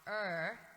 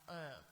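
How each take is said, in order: First: The er sound is harsh and flat. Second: The er sound is rounded and softer. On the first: The speaker calls it wrong. "instead of being like er" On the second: The speaker calls it right. "round out the er"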